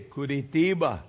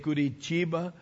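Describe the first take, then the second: First: The t is a hard t. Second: The t sounds like ch. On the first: The speaker sounds like someone from the south. "they say Curitiba" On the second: The speaker sounds like someone from most of Brazil. "which I say Curitiba"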